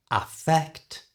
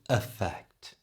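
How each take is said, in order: First: "Affect" with a clear, open A at the start; clear pronunciation demo. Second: Slow "effect" opening on a weak schwa; schwa pronunciation demo. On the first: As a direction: say "Affect" carefully, opening on a full A. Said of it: "Listen carefully for the pronunciation". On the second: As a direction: say "effect" slowly, first vowel reduced to uh. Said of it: "E at the beginning is changed to the schwa sound". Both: Shown as a demonstration.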